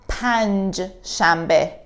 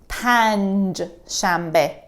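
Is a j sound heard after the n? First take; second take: yes; yes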